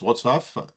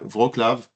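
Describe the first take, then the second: First: The name is said with the Polish barred-L sound. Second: The name is said with a French pronunciation. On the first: "ça s'écrit avec un L lavé, donc on prononce Wrocław" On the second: "on prononce comme ça, Wra- Wrocław pour, euh, en français"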